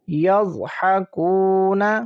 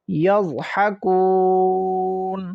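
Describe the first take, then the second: First: The word ends with a short vowel. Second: The word stops on the final consonant.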